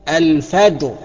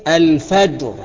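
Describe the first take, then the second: No difference in how they are said.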